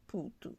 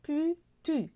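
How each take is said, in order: First: "putu" with ou sounds, poo-too; "putu" said as it is read, with ou. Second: "putu" read letter by letter like French u; "putu" with a French u, the way it is written; spelled-out reading. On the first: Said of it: "mais ça se lit putu". (« putu » prononcé avec le son ou) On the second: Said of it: "tu vas l'écrire". (« putu » lu comme il s'écrit, avec le u français) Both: Shown as a demonstration.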